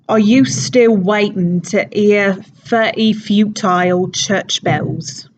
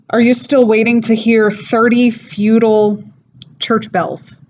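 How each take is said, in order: First: It is said in a Cockney accent. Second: It is said in the speaker's ordinary accent. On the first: "so in a Cockney accent" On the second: "I guess I'll say it in regular"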